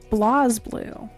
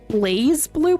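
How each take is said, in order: First: The first syllable has a short a sound. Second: The first syllable has a long a sound. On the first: The speaker calls it right. "There is no E, so it's Blaz" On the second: The speaker calls it wrong. "I used to say this game like BlazBlue"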